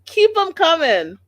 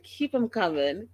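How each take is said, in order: First: High, loud cheer for more; egging on a speaker for more; cheering shout. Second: Said in the usual way. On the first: Retold or imitated. Cheering the mother on, a loud high shout. Repeated, louder cheering take.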